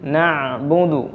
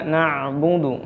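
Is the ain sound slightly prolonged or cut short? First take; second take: prolonged; prolonged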